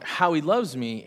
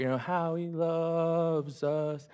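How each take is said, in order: First: Said in the usual way. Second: Slow, careful "How He Loves Us" with a long "loves"; song title drawn out slowly, LOVES stretched. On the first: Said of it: "we were singing that song". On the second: Retold or imitated. Pastor reminding the congregation of the song title, stretched out slowly. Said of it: "We sing it here at Homeport".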